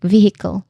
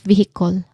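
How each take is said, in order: First: The last syllable has a soft uh vowel. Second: The last syllable has a full vowel. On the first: The speaker calls it right. "you pronounce it as a soft uh sound like vehicle" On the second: The speaker calls it wrong. "not vehicle"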